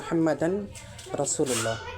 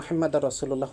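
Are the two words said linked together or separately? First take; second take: separately; linked. First: The n is kept, words said separately. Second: The n merges, words said linked together. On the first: The speaker calls it wrong. "ভেঙে ভেঙে উচ্চারণ করব" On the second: The speaker calls it right. "সুন্দর করে আরবিতে উচ্চারণ করবেন"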